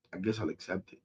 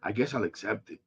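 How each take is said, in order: First: Near-silent, sinking repeat; quieter resignation. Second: Much softer, deflated acceptance; resigned mutter. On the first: Fan repeating acceptance to viewers, fading to near silence. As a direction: fade it out, defeated. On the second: Fan resigning himself to trades, soft and deflated. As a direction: give in with a low sigh. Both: Real, not acted.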